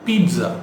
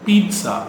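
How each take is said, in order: Both takes have the same delivery.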